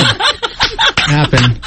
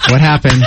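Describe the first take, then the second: First: Slow, drawn-out, laughing dad quote; dad's slow puzzled question. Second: Said in the usual way. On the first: Retold or imitated. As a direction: stretch out a baffled "What happened?". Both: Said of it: "my dad always said".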